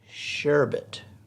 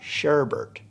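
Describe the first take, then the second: First: The word has one R sound. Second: The word has two R sounds. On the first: The speaker calls it right. "It has a one R" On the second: The speaker calls it wrong. "It has a one R, not two. It's not sherbet"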